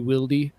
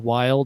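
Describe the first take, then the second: First: The name is said with two syllables. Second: The name is said with one syllable. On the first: The speaker calls it wrong. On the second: The speaker calls it right.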